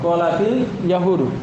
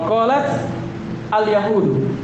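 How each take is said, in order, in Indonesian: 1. Huruf t pada qalat tersambung dengan vokal i. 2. Huruf t pada qalat tidak diikuti vokal. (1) "dalam Al-Qur'an dibaca qalatil yahudu" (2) "Asalnya qalat apa? Al-yahudu. Sukun"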